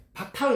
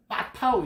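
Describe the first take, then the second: First: Said in the usual way. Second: 빠타흐 with a tense, forceful opening B; 빠타흐 begun on a doubled, unaspirated 빠; hard first consonant. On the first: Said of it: "파타흐로 듣는단 말이에요". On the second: Shown as a demonstration. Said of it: "이렇게 해야 됩니다".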